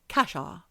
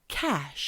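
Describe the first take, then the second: First: The word ends with an added vowel after sh. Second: The word ends cleanly on the sh sound. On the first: "she's going, casha" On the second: "he's saying things like cash"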